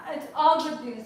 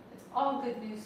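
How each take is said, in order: First: "all" pushed out louder; stress on all. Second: Said in the usual way. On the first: Shown as a demonstration. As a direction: lean hard on "all" in "it's all good news". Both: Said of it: "There's not a single piece of bad news".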